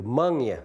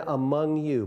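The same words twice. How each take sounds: First: "'mong ya" with the first syllable dropped, mung-ya; local pronunciation. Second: Said in the usual way. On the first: Shown as a demonstration. Speaker explaining the local form of among you, dialect "'mong ya". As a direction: say "'mong ya" as mung-ya, falling at the end. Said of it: "they say". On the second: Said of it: "as in".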